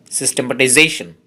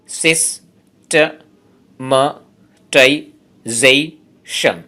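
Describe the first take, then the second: First: Said in the usual way. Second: সিস্টেমাটাইজেশন pulled apart into slow, separate syllables; teacher splitting সিস্টেমাটাইজেশন into syllables. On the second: Shown as a demonstration. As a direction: count out every syllable of সিস্টেমাটাইজেশন. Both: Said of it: "এই ওয়ার্ডটাতে আছে ছয়টি syllable".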